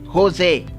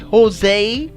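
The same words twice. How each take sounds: First: The name is said with a Spanish pronunciation. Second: The name is said with an American pronunciation. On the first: "the Spanish they say Rose, Jose" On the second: "Americans do say Jose"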